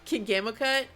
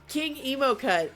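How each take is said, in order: First: The middle part is said as gamo. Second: The middle part is said as emo. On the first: The speaker calls it wrong. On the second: The speaker calls it right.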